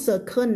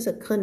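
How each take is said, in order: First: "circle" ending in an N; wrong pronunciation. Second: "circle" ending in a dark L; correct final L. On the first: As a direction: say "circle" as "ser-kern". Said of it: "ไม่พูด circle ไม่ใช่ circle". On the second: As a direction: say "circle" as "ser-kul", no N. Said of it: "ไม่ใช่ circle นะ circle". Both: Shown as a demonstration.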